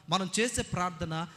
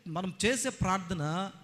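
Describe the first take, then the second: No difference in how they are said.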